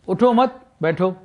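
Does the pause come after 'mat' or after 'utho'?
after mat. There is a pause right after 'mat'.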